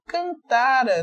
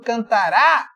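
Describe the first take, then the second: First: The stress is on the middle syllable. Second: The stress is on the final syllable. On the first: The speaker calls it right. "Não estou lendo errado" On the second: The speaker calls it wrong. "Se você colocar aqui um acento"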